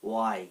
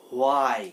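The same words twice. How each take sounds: First: "ওয়াই" as a short "wai", no h; silent h. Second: "হোয়াই" with a sounded h, "ho-ai"; mispronounced h. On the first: Teacher giving learners the correct form of why, "ওয়াই" with silent h. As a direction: open "ওয়াই" straight on a w. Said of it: "এখানে সঠিক উচ্চারণটা হচ্ছে". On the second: Teacher showing learners the common mistake, "হোয়াই" with added h. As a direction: start "হোয়াই" on a breathed "ho". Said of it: "আসবে না বা হ". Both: Shown as a demonstration.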